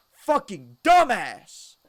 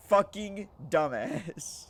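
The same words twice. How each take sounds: First: High, loud, slow exasperated shout; exasperated yell. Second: Louder, higher, slow fed-up curse; other bunkmate's curse. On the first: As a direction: yell it at the idiot friend. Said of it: "I said it out loud". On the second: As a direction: drag it out, fed up. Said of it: "Guess what he says?". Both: Retold or imitated.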